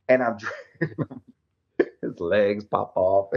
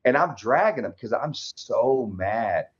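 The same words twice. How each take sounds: First: Breaking into a laugh mid-line; laughing through it. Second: Said in the usual way. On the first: Real, not acted. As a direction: let the laugh slip in as you repeat it. Repeats it, laughing.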